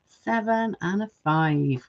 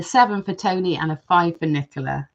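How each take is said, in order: First: Slow, softer, spelled-out repeat of the numbers; slow restating of the scores for the chat. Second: Said in the usual way. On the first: Real, not acted. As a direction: lay each number down slowly as she notes it. Repeating votes slowly.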